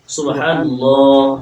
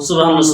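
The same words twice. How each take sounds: First: It is said slowly and carefully. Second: It is said quickly and hurriedly.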